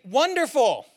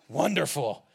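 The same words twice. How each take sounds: First: It is said warmly, with genuine delight. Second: It is said flatly, with weary sarcasm. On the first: The person is truly a joy to see. "no longer do you look at them and think" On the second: The person has become tiresome and familiar. "but you say it differently"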